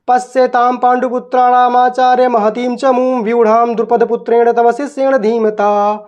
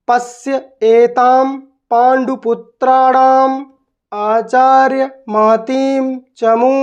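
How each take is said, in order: First: It is read quickly in one flow. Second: It is read with breaks between words.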